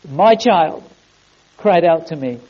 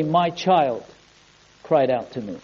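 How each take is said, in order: First: Said in the usual way. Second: Low, soft and solemn; quiet, fatherly pronouncement; hushed divine reply. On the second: Acted. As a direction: answer quietly, sinking lower at the end. God's answer to Satan, first take.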